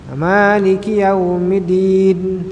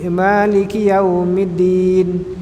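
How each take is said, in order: No difference in how they are said.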